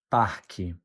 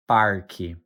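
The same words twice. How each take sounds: First: "parque" without a hard R, like PAH-kee; R-less variant. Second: "parque" with an R sounded before the K; R variant. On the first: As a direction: drop the R sound in "parque", low falling end. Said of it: "or even". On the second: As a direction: say "parque" as PAR-kee, ending on a fall. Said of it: "Let's say it one more time". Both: Shown as a demonstration.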